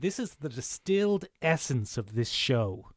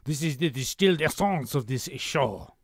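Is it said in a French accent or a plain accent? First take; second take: plain; French. First: It is said in the speaker's plain accent. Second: It is said in a put-on French accent.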